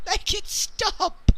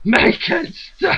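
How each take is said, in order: First: Slow, high mock wail; mock plea. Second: Slow, high, wailing mock cry; mock crying shout. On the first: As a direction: drag it out like a hammed-up plea. Mock despair about the topic. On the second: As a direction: wail it like a hammed-up tantrum. Echoing the mock despair.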